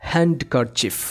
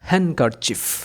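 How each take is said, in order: First: The d sound is clearly pronounced. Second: The d sound is left silent. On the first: The speaker calls it wrong. "অনেকেই ভুলভাবে উচ্চারণ করে বলে হ্যান্ডকারচিফ" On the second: The speaker calls it right. "এখানে ডি silent থাকবে"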